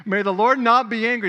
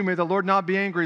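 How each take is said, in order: First: Loud, high NOT pressed hard; urgent plea. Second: Said in the usual way. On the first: Acted. Abraham begging the Lord not to be angry, loud urgent plea. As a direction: beg loudly so God won't be angry.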